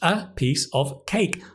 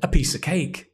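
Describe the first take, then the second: First: Each word is said separately and clearly. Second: The words run together as one sound. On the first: "four words" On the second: "One sound"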